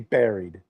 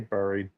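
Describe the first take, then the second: First: The first syllable sounds like 'bear'. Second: The first syllable sounds like 'burr'. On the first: This is how most people say it. The speaker calls it wrong. "people say buried ... You don't have a bear" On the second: This follows the spelling of the word. The speaker calls it right. "you have a burr ... but I say buried"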